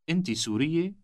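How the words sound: The voice rises at the end.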